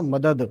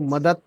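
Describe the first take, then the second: First: The word ends with a d sound. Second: The word ends with a t sound. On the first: The speaker calls it right. "मदद त sound नहीं है, दाल sound है ना" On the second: The speaker calls it wrong. "बहुत से लोग मदद मदद लफ्ज को मदद बोलते हैं"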